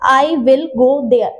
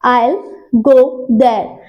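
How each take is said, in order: First: I and will are said as full separate words. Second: I and will are contracted to I'll. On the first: The speaker calls it wrong. "ये गलत है" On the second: The speaker calls it right. "आपने विल नहीं बोला, आपका आइल हो गया ये"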